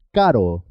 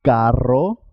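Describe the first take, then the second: First: One quick tap in "caro"; single tapped R. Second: Long trilled rr in "Carro"; rolled double R. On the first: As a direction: say "caro" with a brief R, no roll. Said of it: "suena simple". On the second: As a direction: vibrate the RR of "Carro", ending on a rise. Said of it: "siempre suena doble". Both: Shown as a demonstration.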